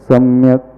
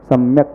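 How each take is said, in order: First: The final k is followed by a vowel. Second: The final k is said without a vowel. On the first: The last letter is a full letter with its vowel. "पूरा का हो जाएगा तो सम्यक क ऐसा पढ़ा जाएगा" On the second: The last letter is a half letter with no vowel. "स्वर मिलाकर के उच्चारण न करें, सम्यक पढ़ें"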